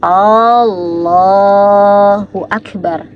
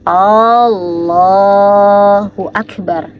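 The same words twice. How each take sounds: First: The opening vowel of Allah is drawn out long. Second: The opening vowel of Allah is drawn out long.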